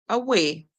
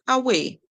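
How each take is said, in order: No difference in how they are said.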